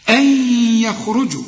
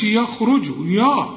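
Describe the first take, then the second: First: يخرجوا opened with a thin "yeh", after a held nasal glide; light yaa. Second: يخرجوا opened with a dark, thick "yaw"; wrong heavy yaa. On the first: Teacher modelling the correct reading, light ya in يخرجوا. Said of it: "كل ياء في القرآن يا". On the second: Teacher showing what not to say, heavy ya in يخرجوا. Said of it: "ما تقولش". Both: Shown as a demonstration.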